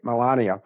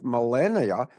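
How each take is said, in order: First: Melania with an open a, meh-LAH-nee-ah; corrected pronunciation. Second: Melania with a flat a, meh-LAY-nee-ah; wrong pronunciation. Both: Real, not acted. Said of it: "I didn't pronounce that right".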